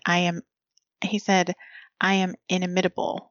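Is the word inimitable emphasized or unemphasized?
unemphasized. The word inimitable carries no special emphasis. "there was no accent on the word"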